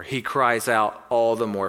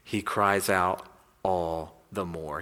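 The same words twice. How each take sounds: First: Said in the usual way. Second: "He cries out all the more" slow, low and drawn out, weight on "cries"; "cries" stretched out low and grave; slow and weighty. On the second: Shown as a demonstration. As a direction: lean hard on "cries", slowly. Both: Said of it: "What does the Bible say".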